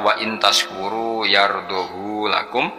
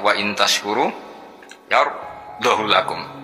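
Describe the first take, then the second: First: The vowel of 'hu' is drawn out long. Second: The vowel of 'hu' is kept short. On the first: "sertane isba berarti normal" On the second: "lan tanpa isba"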